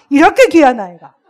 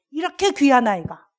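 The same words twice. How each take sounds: First: 이렇게 귀한 아이가 forced out loud through clenched teeth; teacher biting back anger at a troublesome child; through gritted teeth. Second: Said in the usual way. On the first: Shown as a demonstration. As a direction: hold back a curse while praising. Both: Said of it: "이를 이렇게 물고 했어".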